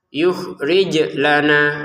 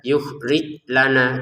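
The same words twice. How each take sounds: First: The j sound ends with an echoing bounce. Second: The j sound stops flat without a bounce. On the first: The speaker calls it right. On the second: The speaker calls it wrong.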